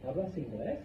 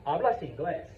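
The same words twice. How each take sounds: First: "hablas inglés?" rising at the end on "inglés"; question intonation. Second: Said in the usual way. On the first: Shown as a demonstration. Teacher asking Caden for contrast, rising question tune. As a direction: lift "inglés" to make it a question. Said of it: "That's a question". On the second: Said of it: "That's a statement".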